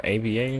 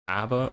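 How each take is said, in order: First: "A B A" said letter by letter; each letter of "A B A" named separately; spelled out. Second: "Aba" pronounced as one word; read as a word. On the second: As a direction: say "Aba" as a name, not as letters. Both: Shown as a demonstration. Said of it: "how you pronounce this".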